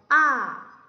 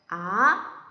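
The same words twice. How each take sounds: First: The pitch falls from high to low. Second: The pitch rises from low to high. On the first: "위에서 아래로 떨어지는 소리예요" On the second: "아래서부터 위로 올라가는 소리예요"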